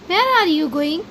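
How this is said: It is said in a gentle, polite tone. The speaker is asking courteously. "अब ये polite वे हो गया"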